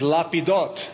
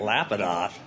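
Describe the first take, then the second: First: The name is said the Hebrew way. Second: The name is said the usual English way.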